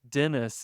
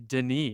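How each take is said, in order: First: The name is said with English pronunciation. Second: The name is said with French pronunciation.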